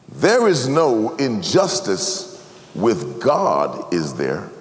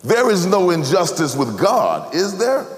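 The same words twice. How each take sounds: First: Slow rhetorical question, fading quiet. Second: Raised, pressing question. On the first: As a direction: ask it slowly, drop soft at the end. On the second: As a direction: press the question, pitch rising. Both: Shown as a demonstration. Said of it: "And the question is this".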